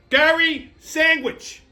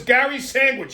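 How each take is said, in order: First: "Gary Sandwich" drawn out slowly, higher; incredulous emphasis. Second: Said in the usual way. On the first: Real, not acted. Comedian repeating a stranger's odd name, slow emphasis on "Gary Sandwich". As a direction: stretch both words of "Gary Sandwich" with weight.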